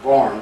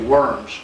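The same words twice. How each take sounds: First: The name is said with German pronunciation. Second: The name is said with English pronunciation. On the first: This is how the locals say it. "they pronounce it" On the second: This is how English speakers say it. "We would say"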